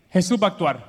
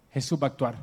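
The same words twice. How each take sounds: First: Said in the usual way. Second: Hushed, lower second take; soft confiding repeat. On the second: Acted. Mary confiding to the servants, hushed repeat. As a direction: drop the voice and confide it. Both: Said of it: "yo lo conozco".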